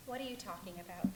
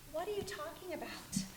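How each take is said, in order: First: Said in the usual way. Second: A sharp whisper; breathless whispered challenge; whispered retort. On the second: Acted. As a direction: hiss the question back at yourself. Inner voice argues with herself.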